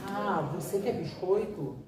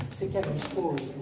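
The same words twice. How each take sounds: First: Slow modelling. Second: Said in the usual way. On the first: Shown as a demonstration. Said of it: "Você modela". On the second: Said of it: "Fala assim".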